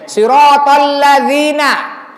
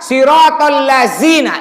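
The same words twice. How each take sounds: First: The consonant is made with the tongue between teeth. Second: The consonant is a plain z sound. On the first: The speaker calls it right. "Keluarkan lidahnya, gigit sedikit" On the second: The speaker calls it wrong. "Yang salah"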